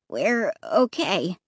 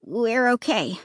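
First: Uncertain. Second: Said in the usual way. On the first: Acted. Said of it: "Clay said uncertainly".

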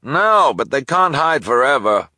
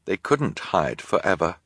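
First: High, loud reply; loud call. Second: Said in the usual way. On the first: Acted. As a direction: call back over shelves. Delivery person calls back.

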